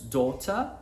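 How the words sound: It is said in a British accent. "Para os britânicos"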